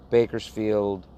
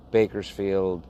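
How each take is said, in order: Both takes have the same delivery.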